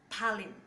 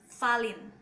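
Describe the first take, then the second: First: The word begins with a p sound. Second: The word begins with an f sound. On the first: This is how it is said in English. "but in English, pronounce Palin" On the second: This is how it is said in Manglish. "In Manglish, they pronounce Falin"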